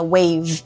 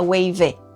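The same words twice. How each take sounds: First: It ends cleanly on the v sound. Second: It ends with an extra vowel sound after v. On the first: The speaker calls it right. "O último som é o V, não é o E" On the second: The speaker calls it wrong. "A gente não fala wave"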